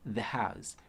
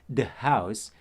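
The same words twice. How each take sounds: First: The word 'the' begins with a voiced th sound. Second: The word 'the' begins with a hard d sound. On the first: The speaker calls it right. "Padahal kita bisa gunakan" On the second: The speaker calls it wrong. "itu yang sering banget kita pakai"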